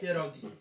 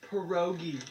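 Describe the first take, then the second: First: The word is said with a Polish-style pronunciation. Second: The word is said with an English-style pronunciation. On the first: This is how the word is properly said. The speaker calls it right. "It's pierogi" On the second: This is how outsiders commonly say it. The speaker calls it wrong. "you guys also have the audacity to pronounce it pierogi"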